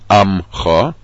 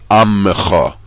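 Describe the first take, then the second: First: No vowel follows the m sound. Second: A short vowel follows the m sound. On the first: The speaker calls it wrong. "Not Amcha. ... Amcha would be a shvanach" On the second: The speaker calls it right. "the vowel under the mem in ammecha is a shvana. A shvana has a short vowel sound"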